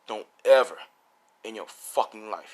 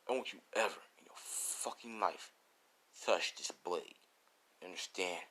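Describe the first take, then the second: First: Hard, loud hit on "ever", then dropping back; threaten, punching out "Don't ever"; serious threat. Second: Low, quiet, menacing warning; serious threat. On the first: Swordsman warning All Might off the blade, forceful threat. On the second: Swordsman warning All Might never to touch the blade, quietly menacing. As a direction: threaten softly, holding the voice down. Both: Acted. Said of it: "He says it like that".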